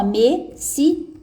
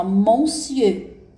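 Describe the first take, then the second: First: Monsieur said slowly as "me-si-eu", in separate syllables; careful, slow teacher's model of monsieur, "me-si-eu"; correct French pronunciation. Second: Monsieur said slowly as written, with a nasal "mon"; drawn-out spelling-style "monsieur", first syllable "mon"; as spelled. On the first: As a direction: sound out monsieur as "me-sieu", no "mon". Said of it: "É assim que vocês vão falar". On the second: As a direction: read monsieur letter by letter as spelled, "mon-sieur". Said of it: "escreve assim". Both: Shown as a demonstration.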